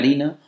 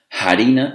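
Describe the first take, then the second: First: The word starts directly with the vowel sound. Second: The word starts with an audible breathy h sound. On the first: "en lugar de"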